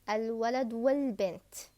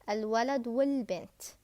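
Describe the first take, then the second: First: The 'a' of 'al' before bint is dropped. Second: The 'a' of 'al' before bint is dropped.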